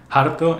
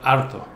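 First: The initial h is breathy and aspirated. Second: The initial h is silent.

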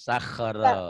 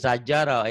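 First: The middle consonant is a rough throaty 'kh'. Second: The middle consonant is a soft 'j' sound. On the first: The speaker calls it right. "titiknya di atas, bukan di bawah" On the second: The speaker calls it wrong.

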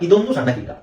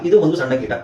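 First: 'Idu ondu' is merged into one word, 'idondu'. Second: 'Idu ondu' is said as two separate words.

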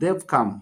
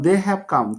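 First: The words 'they have' are contracted to 'they've'. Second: The words 'they have' are said in full. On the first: "এটার উচ্চারণ হবে দেব দেব" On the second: "যেমন দে হ্যাভ come"

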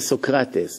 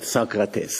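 First: The name is pronounced the Greek way. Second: The name is pronounced the English way. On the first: The speaker calls it right. "In Greek, you say Socrates" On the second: The speaker calls it wrong. "not Socrates, like in English"

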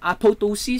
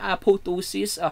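First: The second p sound is clearly pronounced. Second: The second p sound is left silent.

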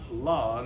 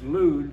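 First: The vowel in the name is an o sound. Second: The vowel in the name is a u sound. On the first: The speaker calls it wrong. "and not Lod, as it's written in our book" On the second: The speaker calls it right. "That's Lud"

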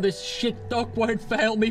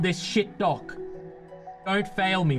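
First: It runs on with no break after 'dock'. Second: There is a clear break after 'dock'. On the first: The bet is that the dock will not fail. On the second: The listener is being called a shit dock.

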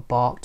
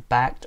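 First: It is said with a non-American pronunciation. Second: It is said with an American pronunciation.

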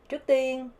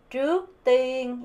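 First: The second syllable is heavier and longer. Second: Both syllables get about equal weight.

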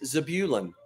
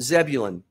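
First: The name has a less familiar, different pronunciation. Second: The name has its familiar, everyday pronunciation. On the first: The speaker calls it right. "the actual pronunciation is Zebulun" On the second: The speaker calls it wrong. "All my life, I've called it Zebulun"

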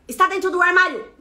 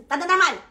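First: The first word is said in full, unhurried. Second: The first word is clipped and spoken fast. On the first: "não é rápido" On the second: "é assim"

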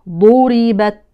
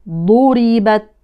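No difference in how they are said.

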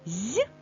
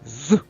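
First: The consonant is soft, palatalized. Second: The consonant is hard, not palatalized. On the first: "М'який" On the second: "Твердий"

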